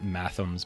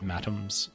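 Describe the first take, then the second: First: The middle consonant is a soft TH sound. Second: The middle consonant is a hard T sound. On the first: The speaker calls it wrong. "not mathums" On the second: The speaker calls it right. "but matums, like a hard T"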